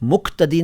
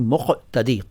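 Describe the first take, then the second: First: The consonant before 't' is a front 'k'. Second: The consonant before 't' is a deep 'q'. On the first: The speaker calls it wrong. "मुक़्तदी नहीं" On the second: The speaker calls it right. "क़ क़ मुक़्तदी"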